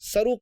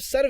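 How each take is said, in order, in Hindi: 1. यह शब्द 'oo' ध्वनि से खत्म होता है। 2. यह शब्द 'v' ध्वनि से खत्म होता है। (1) "ये गलत है लेकिन अब गलत आम हो चुका है" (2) "ये असल लफ्ज सर्व ही है"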